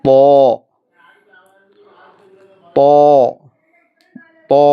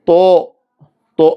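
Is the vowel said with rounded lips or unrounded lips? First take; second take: unrounded; rounded. First: The lips stay straight with no forward rounding. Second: The lips push forward into a rounded o-like vowel. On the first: The speaker calls it right. "നേരെ ചുണ്ട് നേരെ വെക്കുക. മുന്നോട്ട് പോവുകയേ ചെയ്യരുത്" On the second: The speaker calls it wrong. "ചുണ്ട് പലരുടെയും മുന്നോട്ട് വരാറുണ്ട്. ഒരു ഒകാര മോഡൽ"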